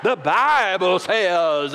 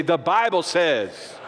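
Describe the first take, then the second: First: Very slow, stretched Southern drawl; Southern preacher accent. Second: Slow declaration with some sass; sauce in the attitude. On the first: Showing how we say it in the South, drawn-out Southern accent. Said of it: "that's how we say it in the South". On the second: Preacher leading everybody to say it, slow and sassy. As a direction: put a little sauce on it, drawn out. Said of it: "say it with a little sauce in your attitude". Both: Shown as a demonstration.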